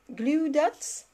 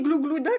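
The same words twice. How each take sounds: First: Higher, careful English accent on "Glue dots", questioning; self-mocking attempt at an English accent; put-on English accent. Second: "glou glou dots" with a French "ou", amused; French-sounding mispronunciation. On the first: Shown as a demonstration. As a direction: show off an English accent, rising at the end. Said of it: "mon magnifique accent anglais". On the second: Retold or imitated. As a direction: laughingly repeat "glou glou dots" as a mistake. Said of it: "j'ai dit glou glou dots?".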